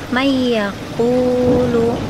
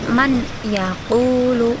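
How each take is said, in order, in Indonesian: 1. Nun menyatu dengan y yang ganda dan berdengung. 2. Bunyi n biasa terdengar sebelum y. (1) "Contoh, may yaqulu" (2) "tidak boleh dibaca man yaqulu"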